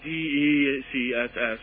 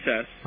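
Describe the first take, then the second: First: It is spelled out letter by letter. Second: It is said as a single word. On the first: "It's just easier than D-E-C-S-S" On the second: "Is it a word now? Yes, DCS"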